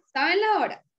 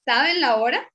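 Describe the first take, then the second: First: "¿saben la hora?" falling from la to hora; falling statement. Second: "¿Saben la hora?" lifting up at the end; rising question. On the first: Teacher repeating the statement tune for the class. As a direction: say it as a flat fact. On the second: Teacher repeating the question tune for the class. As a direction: ask it, pitch climbing on hora. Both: Shown as a demonstration. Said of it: "La diferencia en la entonación".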